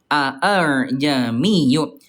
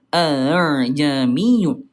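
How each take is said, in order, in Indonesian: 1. Dua vokal hamzah dibaca penuh berurutan. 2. Vokal hamzah kedua dibaca lemah dan ringan. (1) "asal kalimatnya aa ya" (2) "dibacanya er gitu ya. Hamzah keduanya agak manja"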